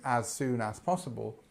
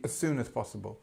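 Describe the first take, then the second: First: The phrase is said slowly with separate words. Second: The phrase is said quickly with words run together. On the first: "when I'm talking to you now" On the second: "spoken quickly"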